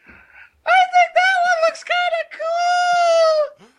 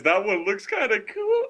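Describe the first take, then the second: First: Very high, loud cartoonish squeal; Garrett impression. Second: Said in the usual way. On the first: Friend mocking a buddy's liking for fursuits, squealed impression. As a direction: drag it out in a piercing mock falsetto. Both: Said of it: "I gotta do my Garrett wi-, voice".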